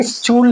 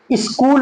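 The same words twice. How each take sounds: First: स्कूल said "school" with a ch sound; स्कूल mispronounced with ch; wrong pronunciation. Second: स्कूल said "skool" with a hard k; स्कूल with a silent h; correct pronunciation. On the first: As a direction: say स्कूल as "s-chool" with ch. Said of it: "स्कूल नहीं बोलेंगे". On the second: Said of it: "स्कूल बोलेंगे". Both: Shown as a demonstration.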